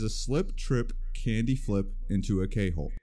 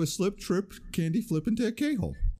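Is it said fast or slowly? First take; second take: slowly; fast. First: It is said slowly and deliberately. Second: It is said at normal, quick speed.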